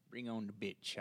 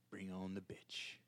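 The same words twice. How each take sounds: First: Said in the usual way. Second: Soft whispered repeat; whispering. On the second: Shown as a demonstration. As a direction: whisper it to yourself. Repeats line, second whispered.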